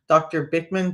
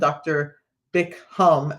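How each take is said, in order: First: The name ends with a 'man' sound. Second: The name ends with a 'ham' sound. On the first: The speaker calls it right. "There's no H in his name" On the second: The speaker calls it wrong. "One of my friends calls Doctor Bickman Doctor Bickham"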